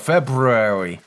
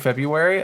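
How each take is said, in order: First: The word is sounded out letter by letter. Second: The word is said in its usual everyday form. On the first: "I'll go February, and that's how I'll remember" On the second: "instead of saying February"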